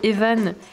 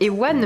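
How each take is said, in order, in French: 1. La consonne du milieu est un son v. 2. La consonne du milieu est un son w. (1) "ça doit se prononcer plutôt Evan" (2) "quand je le lis dans ma tête ça lit Ewan"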